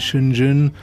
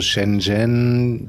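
First: The name is said mumbled, Chinese style. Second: The name is said clearly, German style. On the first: This is how Chinese locals say it. "die Chinesen, die nuscheln das, glaube ich, so ein bisschen" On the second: This is how the speaker himself says it. "ich sage mal so"

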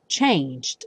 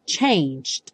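First: The g runs straight into a short final d. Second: The g runs straight into a short final d.

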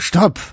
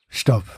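First: It is said firmly, with conviction. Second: It is said hesitantly, without conviction.

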